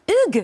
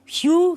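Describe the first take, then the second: First: The name is pronounced the French way. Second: The name is pronounced the English way. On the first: "À la française?" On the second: "Est-ce que je prononce bien Hugh?"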